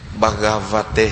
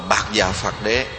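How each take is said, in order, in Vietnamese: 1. Đọc theo âm Phạn, thành một từ. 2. Đọc thành bốn âm tiết tiếng Việt riêng biệt. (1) "Nếu mà chu âm đúng theo phạn á" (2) "Mình chu âm là Bạc Già Phạt Đế"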